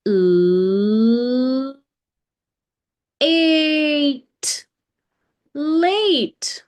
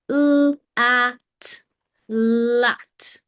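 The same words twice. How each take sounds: First: « late » said with the long letter-name A, rising high. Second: « lat » dit avec un a court et bref, sans e magique; short a in lat. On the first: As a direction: stretch « late » into the A of the alphabet. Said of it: "a consonant came and stood at the beginning". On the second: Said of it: "what if there is no magician here". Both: Shown as a demonstration.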